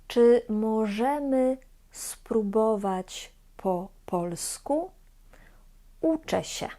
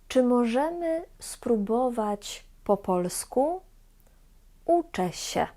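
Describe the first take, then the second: No difference in how they are said.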